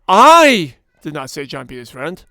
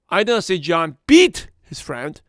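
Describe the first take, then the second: First: The word I carries the main stress. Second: The word beat carries the main stress. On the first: Someone else said it. "That means there could be someone else said that" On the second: He did something else to the friend. "He pushed him around"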